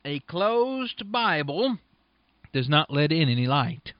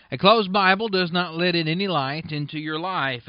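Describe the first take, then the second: First: Drawn-out, weighty delivery on Bible and not; slow emphatic. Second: Said in the usual way. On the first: Shown as a demonstration. Preacher pressing a point to his radio listeners, slow and emphatic. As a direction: let each word land, very slowly. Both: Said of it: "I want you to note something".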